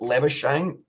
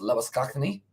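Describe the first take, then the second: First: The name is said the Australian way. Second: The name is said the Afrikaans way. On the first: "the Australians pronounce it" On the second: "The origin of it is Afrikaan, and that is"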